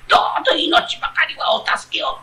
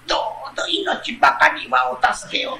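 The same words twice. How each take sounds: First: Breathy, pleading fox, higher; pitiful fox voice. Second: A fox begging for its life, softly, with a tremble of a laugh; pitiful fox voice. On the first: Retold or imitated. Retelling the fox's plea to his friend, mock pitiful. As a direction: repeat the fox's plea mockingly, begging. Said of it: "哀れな声で". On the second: Acted. The fox begs the man not to kill it, pitiful and soft. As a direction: plead quietly, like a trapped fox. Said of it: "狐が下から哀れな声で".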